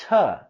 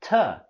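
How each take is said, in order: First: The word has a weak, reduced vowel. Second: The same.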